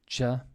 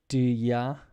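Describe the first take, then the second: First: It starts with a j sound. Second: It starts with a d sound. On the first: "becomes like a j for me" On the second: "this dia"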